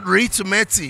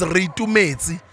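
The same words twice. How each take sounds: First: Ritumetse with an English R, RI-tu-me-ti; anglicized name. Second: Ritumetse with a tapped r, ri-tu-me-tse; proper Sesotho name. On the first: Retold or imitated. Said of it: "Your name is Ritumetse". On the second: Shown as a demonstration. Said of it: "Your name is not Ritumetse".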